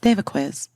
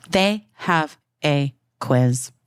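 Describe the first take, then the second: First: Said in the usual way. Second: Slow, separated THEY, HAVE, A, QUIZ; emphatic word by word. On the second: Real, not acted. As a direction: spell out each word with a pause between. Repeats it slowly for emphasis.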